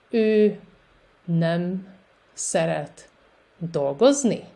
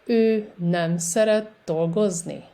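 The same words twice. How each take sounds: First: Each word on its own, pauses between; slow repetition. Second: Words joined with only brief gaps; a little faster. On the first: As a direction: dictate it word by word for a learner. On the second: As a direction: run it together more, still articulated for learners. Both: Shown as a demonstration. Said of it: "And a little faster".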